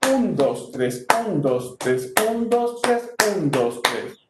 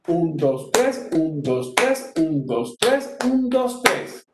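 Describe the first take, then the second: First: "un" lifted and strong, "dos, tres" dropping; stress on UN. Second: "tres" lifted and strong after weaker "un, dos"; stress on TRES. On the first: Teacher contrasting bambuco with pasillo, accent on "un". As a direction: count in threes, leaning on each "un". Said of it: "Bambuco sería". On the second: Teacher contrasting pasillo with bambuco, accent on "tres". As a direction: count in threes, pushing each "tres". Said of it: "Y pasillo". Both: Shown as a demonstration.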